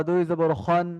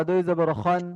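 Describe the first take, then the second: The two takes are said the same way.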